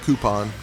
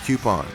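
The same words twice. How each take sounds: First: The first syllable sounds like koo. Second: The first syllable sounds like kyoo. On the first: The speaker calls it wrong. "not coupon" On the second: The speaker calls it right. "it's coupon, There's a Q in there"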